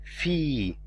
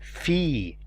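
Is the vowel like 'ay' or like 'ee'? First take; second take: ee; ee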